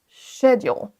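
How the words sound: The word begins with an sh sound. "l'accent U K d'abord. ... on démarre avec le son ch"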